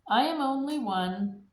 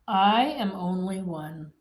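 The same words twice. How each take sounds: First: It is said at a normal speed. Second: It is said slowly.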